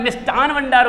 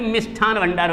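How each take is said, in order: First: मिष्ठान with unaspirated T before भंडार; correct form. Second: मिष्ठान with aspirated TH before भंडार; wrong form. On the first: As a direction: say "mishTaan" for मिष्ठान. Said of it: "ये शुद्ध होता है". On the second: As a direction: cite "mishTHaan" for मिष्ठान as the error. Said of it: "न कि मिष्ठान भंडार". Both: Shown as a demonstration.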